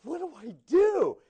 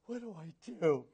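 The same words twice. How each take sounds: First: Mock panic. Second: Quiet, laughing mock dismay; half-laughing panic. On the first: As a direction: wail the question like you're truly stuck. Panicked new missionary, final take. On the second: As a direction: ask it softly through a laugh, half joking. Panicked new missionary, first take.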